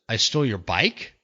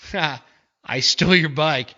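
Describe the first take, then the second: First: It sounds like a disbelieving question. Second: It sounds like a mocking, sarcastic remark.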